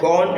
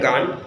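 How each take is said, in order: First: It is said with a British vowel, like 'gon'. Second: It is said with an American vowel, like 'gahn'. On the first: "British গো ওয়েন গন বলে" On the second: "আমেরিকানরা গান বলে"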